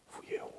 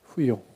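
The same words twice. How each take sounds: First: Timid small voice. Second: Very soft, shy confession; timid small voice. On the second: The shy woman admitting to Jesus it was her, in a tiny voice. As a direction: barely get the words out, timidly. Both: Acted. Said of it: "com uma voz assim baixinha".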